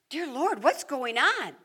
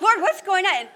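First: It is said at a normal, quiet volume. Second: It is shouted loudly over noise.

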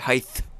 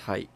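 First: The word ends with a th sound. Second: The word ends with a plain t sound. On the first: The speaker calls it wrong. "if you want me to be like certain people, I can say height" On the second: The speaker calls it right. "It is height"

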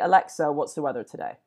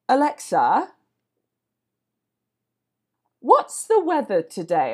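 First: There is no long pause after Alexa. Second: There is a long pause after Alexa.

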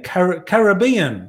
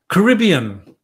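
First: The word is said in an Australian accent. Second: The word is said in an American accent. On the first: The speaker calls it right. "You've got to say it like an Australian" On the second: The speaker calls it wrong. "that's the American way of saying it"

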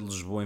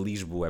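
First: The first vowel sounds like a reduced 'a'. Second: The first vowel is a clear 'i' sound. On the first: The speaker calls it wrong. "por dizer Lisboa em vez de Lisboa, é porque é com I, não é com A" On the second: The speaker calls it right. "é com I, não é com A"

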